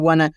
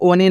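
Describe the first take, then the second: First: The word is said in one syllable, wun. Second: The word is said in two syllables, oh-nee. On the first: The speaker calls it right. "आपको क्या पढ़ना है वन" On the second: The speaker calls it wrong. "आपको ओने नहीं पढ़ना दोस्तों"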